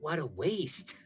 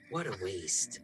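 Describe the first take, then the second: First: A light, smiling shrug in the voice; smiling Etsa. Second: A lower, softer, more dismissive repeat; Etsa, lower and quieter. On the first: Etsa smiles at the offered child, lightly amused. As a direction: say it through a smile, mildly amused. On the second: Etsa repeats it to herself, lower and softer. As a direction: let it drop low and soft, a cold aside. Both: Acted. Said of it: "Etsa smiles and goes".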